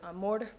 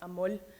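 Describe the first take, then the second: First: The word ends with an R sound. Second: The word ends with an L sound. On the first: "instead of having like the word amor pronounced like that" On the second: "it would be pronounced amol"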